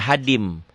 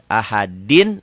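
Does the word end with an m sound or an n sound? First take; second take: m; n. First: The final n merges into an m sound. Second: The word ends with a clear n sound. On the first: "jadi ahadim. Masuk ke mim" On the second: "Ahadin ini tanwin ketemu mim idgham bi gunnah"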